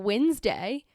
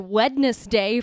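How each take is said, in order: First: The d is silent and the word is shortened. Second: Every letter is sounded, including the d. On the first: "for Wednesday" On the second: "you spell it like that, but I don't say Wednesday"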